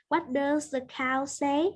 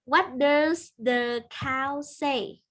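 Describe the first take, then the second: First: Said in the usual way. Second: Put-on reading to a toddler. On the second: Teacher asks small pupil slowly.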